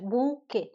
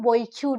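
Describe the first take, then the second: First: It is said like boo-kay, ending silent. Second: It is read from spelling, like boy-cute. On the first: The speaker calls it right. "इसका pronunciation जो है वो बुके होता है" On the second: The speaker calls it wrong. "ना बुके का spelling ऐसे बॉयक्यूट लिखते हैं ना"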